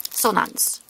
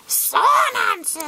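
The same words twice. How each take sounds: First: Said in the usual way. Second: High-pitched drawn-out squawk; high, put-on creature call; creature name cry. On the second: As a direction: shout the name like a cartoon creature. Calls out card name in character.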